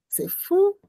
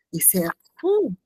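First: Amazed. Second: Said in the usual way. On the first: Real, not acted. Retelling a shocking scene.

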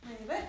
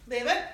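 First: Said in the usual way. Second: Louder firm "Leave it." to the dog; firm loud command. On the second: Real, not acted. Trainer to dog: a firm, loud "Leave it.". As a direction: bark the cue "Leave it." sharply.

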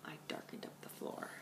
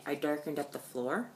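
First: Whispered aside. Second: Said in the usual way. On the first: Shown as a demonstration. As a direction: repeat it in a whisper.

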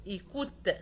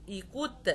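No difference in how they are said.

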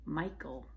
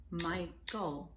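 First: Said in the usual way. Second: Michael in two separate beats, Mi-chael; syllable by syllable. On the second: Shown as a demonstration. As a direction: clap out both syllables of Michael. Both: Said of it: "Two syllables in Michael".

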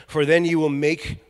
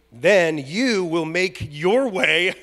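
First: Said in the usual way. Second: Slow, with weight on "you" and "your"; stress on YOU and YOUR. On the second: Shown as a demonstration. Preacher rereads a verse to the church, stressing "you" and "your". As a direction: lean hard on "you" and "your", drawing them out.

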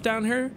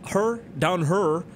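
First: Said in the usual way. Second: "her, down her" with "here" turned into a drawn-out "hurr"; playful mispronunciation. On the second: Shown as a demonstration. Joking about stuff down here, "her" drawn out playfully. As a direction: say "her" slowly, in place of "here".

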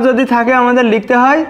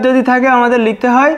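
No difference in how they are said.

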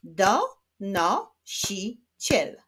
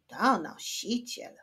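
First: "Donosiciel" slowly as do, no, si, ciel; split into syllables. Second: Said in the usual way. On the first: Shown as a demonstration. Teacher clapping syllables of donosiciel, slowly split. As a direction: clap out "Donosiciel" in four separate beats. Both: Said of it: "Wyklaszczmy sylaby w tym wyrazie".

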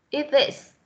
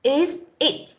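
First: IS THIS said as one joined unit; linked sounds. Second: IS and IT each said apart; read separately. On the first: Teacher repeating the linked form for students, IS THIS joined. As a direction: slide from IS directly into THIS. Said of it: "nối âm thì chúng ta sẽ đọc là". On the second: Teacher showing students the words read apart, IS IT separated. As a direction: separate IS from IT, each word distinct. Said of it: "đọc riêng ra chúng ta sẽ đọc là". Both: Shown as a demonstration.

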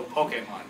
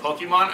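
First: "Pokemon" said as poh-kay-mon with a long A; correct pronunciation. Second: "Pokemon" said as poke-ee-mon, with a kee sound; wrong pronunciation. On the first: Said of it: "I'm gonna go". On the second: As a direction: say "Pokemon" with an ee after the k. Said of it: "You're gonna go". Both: Shown as a demonstration.

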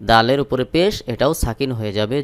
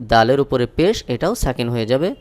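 The two takes are said the same way.

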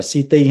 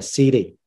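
First: "city" with a crisp hard t, siti; "city" said with a sharp clear t, siti; wrong way. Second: "city" said American style, t softened to d, sidi; right way. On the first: Teacher showing students the wrong way: crisp hard t in "city". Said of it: "Chúng ta không đọc là city ha". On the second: Teacher showing students the right way: flapped t in "city", sidi. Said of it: "chúng ta đọc là city". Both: Shown as a demonstration.

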